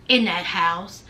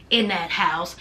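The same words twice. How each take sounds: The two takes are said the same way.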